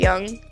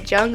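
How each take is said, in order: First: The name begins with a y sound. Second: The name begins with a j sound. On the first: "or I could say Young" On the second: "I could either say Jung"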